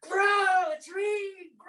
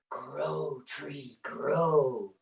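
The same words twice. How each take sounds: First: It is said very loudly, almost shouted. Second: It is said at a soft, plain volume.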